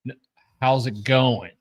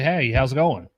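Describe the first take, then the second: First: It is an earnest, insistent question. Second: It is a casual, passing greeting.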